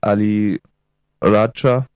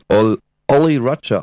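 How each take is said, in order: First: The first vowel sounds like 'ah'. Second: The first vowel sounds like 'oh'. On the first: This is the original name of the pirate. "des indischen Piraten Ali Raja" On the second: This is how the British said the name. "die sprachen das Oli Raja aus"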